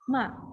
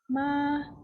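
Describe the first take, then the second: First: The syllable is said with a sharply falling pitch. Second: The syllable is said with a high level pitch. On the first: "fourth tone" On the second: "One is first tone"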